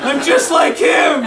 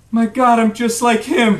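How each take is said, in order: First: High, slow mock wail; hammed-up anguished shout. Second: Slow, raised, dawning horror; acted appalled realization; stunned revelation. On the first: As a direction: cry it out in despair. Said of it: "he starts weeping". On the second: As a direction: realize it slowly and with dismay. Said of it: "suddenly he has this revelation". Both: A narrator's reading.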